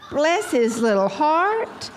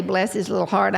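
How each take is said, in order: First: High, slow, hammed-up cooing pity; exaggerated pitying excuse, pitch way up; doting pity. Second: Said in the usual way. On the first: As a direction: stretch it out sweetly, rising on "heart". Acted pitying excuse for husband.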